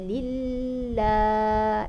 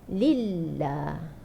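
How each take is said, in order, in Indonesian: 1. Bunyi L ditahan terlalu lama. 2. Bunyi L ditahan sebentar, dengan satu getaran. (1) "Lama sangat di tahan di situ" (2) "Dia sekali enjut je"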